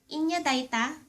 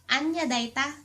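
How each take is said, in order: First: The first word begins with an 'ee' vowel. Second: The first word begins with an 'ah' vowel.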